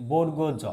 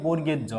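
First: বর্গ জ as borgo jo, ending in o; careful model reading of বর্গ জ; correct letter name. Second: বর্গের জ with "borger" ending in er; common misreading. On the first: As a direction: say বর্গ with a round o, then জ. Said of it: "এটার সঠিক উচ্চারণ হচ্ছে". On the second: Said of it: "এই বর্ণটিকে আমরা বলি". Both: Shown as a demonstration.

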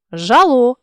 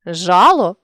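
First: Жало with final ЛО stressed; stress on last syllable. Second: Жало with ЖА stressed; stress on first syllable. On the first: Teacher shows a stress variant, жало stressed on ЛО. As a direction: land on ЛО ending жало. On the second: Teacher shows a stress variant, жало stressed on ЖА. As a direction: punch the opening ЖА of жало. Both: Shown as a demonstration. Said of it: "наголосивши той чи інший склад".

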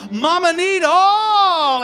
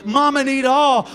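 First: Slow, high, crying wail on Mama need all; drawn-out wail. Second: Demand. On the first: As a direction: stretch all into a long cry. Her demand, repeated as a slow wail. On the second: Her demand, first take. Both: Acted.

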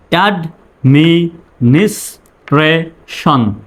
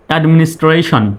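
First: administration slowly, syllable by syllable; broken into syllables. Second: Said in the usual way. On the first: Shown as a demonstration. Teacher speaking for learners to repeat, administration in slow syllables. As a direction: drill administration in separate beats. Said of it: "আমার পরে আপনি বলবেন". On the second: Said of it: "তারপরে একসঙ্গে বলবেন".

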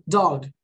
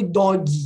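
First: "dog" with a barely released g, lower; English pronunciation. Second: "dog" said as "dó-gui"; every letter pronounced. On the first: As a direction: let the g in "dog" almost drop. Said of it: "quase eu falei o G". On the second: Teacher showing what she didn't say, every letter pronounced. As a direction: add an "ee" after the g in "dog". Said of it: "Eu não falei dog". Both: Shown as a demonstration.

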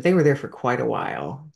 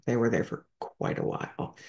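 First: Said in the usual way. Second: Whispered echo, much softer; softly whispered aside. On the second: Real, not acted. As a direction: drop to a breathy whisper on the repeat. Repeats the line, second time hushed.

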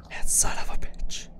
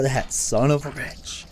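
First: Hushed whisper curse. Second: Said in the usual way. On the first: Real, not acted. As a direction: breathe the curse under your breath.

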